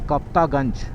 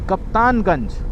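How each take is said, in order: First: It is said without an n before ganj. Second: It is said with an n before ganj. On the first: The speaker calls it wrong. "गलत pronunciation कर लिया मैंने" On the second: The speaker calls it right. "नहीं, कप्तानगंज"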